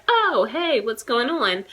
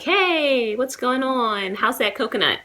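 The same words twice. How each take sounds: First: Breezy high "Oh, hey" dropping into an easy question; relaxed, chummy hello; casual American greeting. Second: High, slow, breezy "Hey, what's going on?"; drawn-out friendly American hello; overly casual greeting. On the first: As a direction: toss it off like greeting an old friend. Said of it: "we're just like". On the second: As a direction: saunter up to a stranger all chummy. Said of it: "I don't just go up and speak". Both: Shown as a demonstration.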